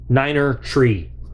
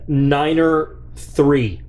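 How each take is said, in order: First: Three begins with a plain t sound. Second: Three begins with a th sound.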